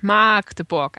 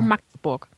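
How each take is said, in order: First: The name is pronounced in an exaggerated, ugly way. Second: The name is pronounced plainly, without any exaggeration. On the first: This is how people on television say it. The speaker calls it wrong. "sagen immer so richtig hässlich Magdeburg" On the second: This is simply what the name is. The speaker calls it right. "das heißt einfach nur Magdeburg"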